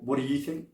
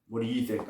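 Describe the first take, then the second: First: It is said in a playful, flirty tone. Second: It is said in a plain, neutral tone. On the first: The speaker is flirting. "You can see how the tone of my language changed" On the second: The speaker is simply asking. "I'm not just saying"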